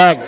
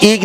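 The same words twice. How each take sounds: First: এগ with an open "e" vowel, like "egg"; correct short e. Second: ইগ with an "ee" vowel, like "eeg"; wrong vowel. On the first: Teacher offers class the right choice, এগ said with open "e". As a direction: say এগ as English "egg", not "eeg". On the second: Teacher offers class the wrong choice, ইগ said with "ee". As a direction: say ইগ as "eeg" instead of "egg". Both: Shown as a demonstration. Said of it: "আমি কি ইগ নাকি এগ".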